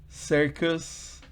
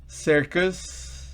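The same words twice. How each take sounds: The two takes are said the same way.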